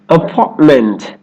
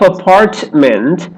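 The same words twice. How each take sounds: First: The middle T is held, not released. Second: The middle T is fully released. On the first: The speaker calls it right. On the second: The speaker calls it wrong.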